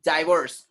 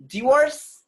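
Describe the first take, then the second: First: Divorce as "die-VORCE"; long eye vowel in divorce, falling; American pronunciation. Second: Divorce as "dih-VORCE", high and loud; short i in Divorce, rising; British pronunciation. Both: Shown as a demonstration.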